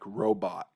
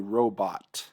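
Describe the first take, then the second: First: The final T becomes a glottal stop. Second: The final T is fully pronounced. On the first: "I usually say something like robot" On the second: "I don't actually say robot"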